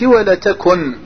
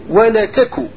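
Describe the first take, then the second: First: The word ends with a final n sound. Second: The word ends without a final n sound. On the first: The speaker calls it wrong. "مش ولا تكن" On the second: The speaker calls it right. "ما كش النون"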